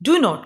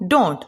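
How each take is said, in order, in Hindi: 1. यह दो पूरे शब्दों के रूप में बोला जाता है। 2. यह एक संकुचित शब्द के रूप में बोला जाता है।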